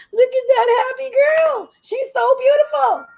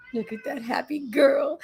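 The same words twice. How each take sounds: First: High, slow, adoring coo at the dog; doting pet talk. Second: Said in the usual way. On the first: Real, not acted. Gushing baby talk to dog.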